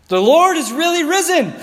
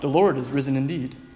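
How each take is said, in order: First: It is said with excited emphasis. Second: It is said in a flat, tame way.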